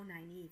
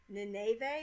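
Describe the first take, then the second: First: The name is said as in the audiobooks. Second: The name sounds like the city Nineveh. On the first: This is how the name is heard in the audiobooks. The speaker calls it right. "Nynaeve, that sounds better" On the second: This is how the name was imagined when only read. The speaker calls it wrong. "Nynaeve was like Nineveh or something"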